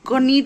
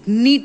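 First: A k sound is pronounced before the n. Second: The word starts directly with the n sound. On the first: The speaker calls it wrong. "क नीट मत बोलना" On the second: The speaker calls it right. "क का sound silent है"

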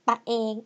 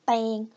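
First: Two syllables; the first has a short vowel. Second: One syllable; the two syllables merge into one. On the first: "people shorten the word ตัวเอง to ตะเอง" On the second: "when you speak faster, from ตะเอง become เตง"

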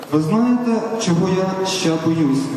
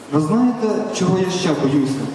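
Both takes have the same delivery.

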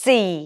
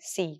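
First: The letter is said with strong stress. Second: The letter is said lightly, without stress. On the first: The speaker calls it right. "There has টু be a stress" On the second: The speaker calls it wrong. "আমরা কি বলে ফেলি সি উই আর ডান"

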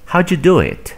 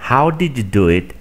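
First: The words are reduced and run together. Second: Every word is pronounced fully and separately.

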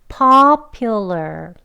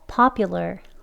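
First: The word is said slowly. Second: The word is said quickly. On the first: "천천히 같이 해볼게요" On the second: "빨리도 해볼게요"

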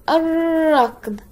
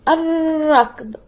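Both takes have the same delivery.

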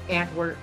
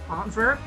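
First: The second syllable starts with a W sound. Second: The second syllable starts with a V sound. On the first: The speaker calls it wrong. "That's like the American butchers butchering style" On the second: The speaker calls it right. "I think you're supposed to pronounce it with a V"

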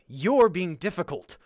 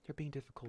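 First: It sounds openly frustrated and mean. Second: It sounds pleasant and neutral, without annoyance. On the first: The speaker calls it right. "it should be like, ... a mean sort of like, I'm frustrated with you thing to say" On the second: The speaker calls it wrong. "But it shouldn't be"

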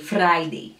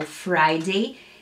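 First: The R is strong, Kenyan English style. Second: The R is said softly, standard style.

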